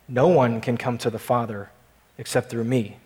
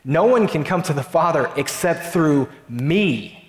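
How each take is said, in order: First: The word 'me' gets no special stress. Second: The word 'me' is strongly stressed.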